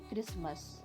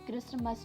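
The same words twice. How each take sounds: First: No t sound is heard in the middle. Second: A t sound is heard in the middle. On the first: The speaker calls it right. "इसका correct pronunciation है क्रिसमस।" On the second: The speaker calls it wrong. "इसे क्रिसमस नहीं बोला जाता।"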